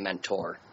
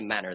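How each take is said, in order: First: The middle t is pronounced. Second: The middle t is dropped. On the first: The speaker is not a local. "people not from Menner. They say mentor" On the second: The speaker is a local. "people from Menner, they say Menner"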